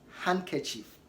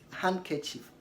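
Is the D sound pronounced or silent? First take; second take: silent; silent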